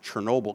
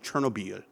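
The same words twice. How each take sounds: First: The name is said with an English pronunciation. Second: The name is said with a French pronunciation. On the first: "it took me a long time to pronounce it Chernobyl" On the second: "because I was in France, so it was always Chernobyl"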